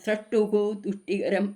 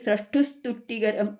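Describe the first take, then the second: First: The two words are said separately with an added vowel. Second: The two words are run together without a break.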